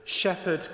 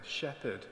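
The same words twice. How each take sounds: First: High, loud call for help; desperate call. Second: Softer, sinking address; despairing. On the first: Frightened deer calls the shepherd for help, desperate call. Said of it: "lifted up her voice and called desperately". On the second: Frightened deer addresses the shepherd beside her, despairing. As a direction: say it with quiet despair. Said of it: "she said despairingly". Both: A narrator's reading.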